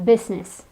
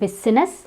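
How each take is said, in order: First: The middle I vowel is silent. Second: The middle I vowel is pronounced. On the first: The speaker calls it right. "the I is silent" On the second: The speaker calls it wrong. "It's not business"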